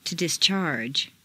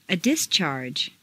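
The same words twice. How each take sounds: First: DisCHARGE, stressed on the second syllable. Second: DIScharge, stressed on the first syllable. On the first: Teacher models verb "discharge", second-syllable stress. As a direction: hit CHARGE in "discharge". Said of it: "to the second syllable". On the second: Teacher models noun "discharge", first-syllable stress. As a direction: hit DIS in "discharge". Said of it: "first syllable for nouns". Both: Shown as a demonstration.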